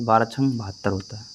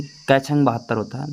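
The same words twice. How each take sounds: First: Settled falling answer, "बारह छंग बहत्तर होता है।" said flat and final; quick answer. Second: Rising quiz-style question on छंग. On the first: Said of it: "तो आपको तुरंत जवाब आना चाहिए". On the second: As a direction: ask "कै छंग बहत्तर होता है?" with the pitch rising at the end. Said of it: "जब तक आपको ऐसे कोई पूछ ले". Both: Retold or imitated.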